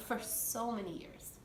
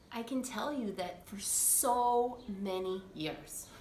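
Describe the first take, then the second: First: Soft laugh. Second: Said in the usual way. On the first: Real, not acted.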